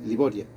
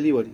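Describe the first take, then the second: First: Said in the usual way. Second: "Libori" said the English way, final a dropped; English-style name. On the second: Shown as a demonstration. Teller shows the sister's name in English, "Libori" anglicized. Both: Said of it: "Yo le digo en inglés".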